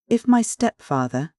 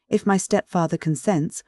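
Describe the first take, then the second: First: "my" pushed high and slow, rising; stress on my stepfather. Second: Said in the usual way. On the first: A narrator's reading. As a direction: lean hard on "my" in "If my stepfather". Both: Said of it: "she emphasized the word".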